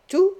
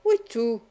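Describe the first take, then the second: First: One-word query, TOUT lifted at the end; questioning. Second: Settled yes, TOUT brought down; confirming. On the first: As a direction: TOUT rising sharply as a question. Banker questions his partner's promise. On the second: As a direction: TOUT falling as a firm answer. Partner confirms in answer. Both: A narrator's reading.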